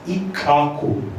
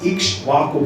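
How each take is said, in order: First: The name is said without any 'sh' sound. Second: The name is said with a clear 'ksh' cluster. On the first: The speaker calls it right. "pronounced it as Ikaku. So that is the right pronunciation" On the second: The speaker calls it wrong. "I was thinking the pronunciation is Ikshvaku"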